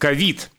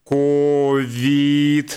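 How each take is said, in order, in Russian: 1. Ударение на второй слог. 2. Ни один слог не ударный, произношение ровное и роботизированное. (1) "с ударением на второй слог" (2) "ну как робот сейчас постарался, да, вообще без ударения"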